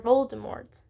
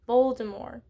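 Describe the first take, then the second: First: "Voldemort" with a clear t at the end; final T sounded. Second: "Voldemort" ending on the r, no t; silent final T. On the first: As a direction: say "Voldemort" pronouncing the last t. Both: Shown as a demonstration. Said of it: "is it pronounced Voldemort or Voldemort".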